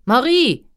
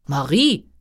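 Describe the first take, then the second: First: High, loud royal shout for the maid; loud call. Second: King calling out for the maid; loud call. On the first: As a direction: call out sharply, much higher, falling at the end. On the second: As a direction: call the name out, voice lifting at the end. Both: A narrator's reading. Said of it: "rief der König laut".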